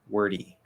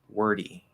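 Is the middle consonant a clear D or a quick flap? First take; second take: flap; flap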